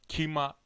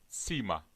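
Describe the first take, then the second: First: The word begins with a k sound. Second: The word begins with an s sound. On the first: The speaker calls it wrong. "kima vesaire değil" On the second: The speaker calls it right. "daha ince bir şekilde okunur"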